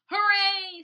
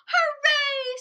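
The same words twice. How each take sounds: First: Loud cheer, less high; group cheer. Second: High, loud squeal; excited cheer. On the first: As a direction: cheer along with friends. Walter and others cheering. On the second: Isabel cheers the yes, high loud squeal. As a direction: cheer at the top of her voice. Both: Acted.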